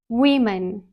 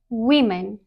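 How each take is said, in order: First: The first syllable sounds like "we". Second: The first syllable sounds like "we".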